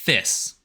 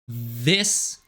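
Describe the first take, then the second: First: The th sound is unvoiced, just breath. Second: The th sound is voiced, with buzzing. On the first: "To do it unvoiced would be like this" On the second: "this is the voiced version"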